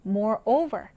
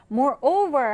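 First: Moreover, with the stress on over; Moreover에서 over에 강세. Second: Said in the usual way. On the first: Shown as a demonstration. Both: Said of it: "over의 강세가 있네요".

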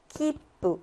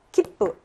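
First: 키뿌 lengthened with a stop before 뿌; 키뿌 the Japanese way, spaced out; three beats. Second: 키뿌 in two short beats; the mistaken compact 키뿌; Korean style. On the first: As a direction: hold back the 뿌 in 키뿌 for a beat. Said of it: "이렇게 읽어줘야 되는". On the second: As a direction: clip 키뿌 with no extra beat. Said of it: "키뿌, 노". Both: Shown as a demonstration.

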